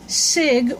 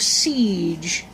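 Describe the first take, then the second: First: The name has a short vowel, like 'sig'. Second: The name has a long vowel, like 'seege'. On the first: The speaker calls it right. "Sig or Siege" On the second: The speaker calls it wrong. "siege sounds violent"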